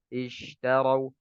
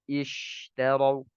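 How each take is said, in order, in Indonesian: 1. Bunyi sh lemah dan lembut. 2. Bunyi sh kuat dan tegas. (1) "Bunyinya lemah" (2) "kuat ya"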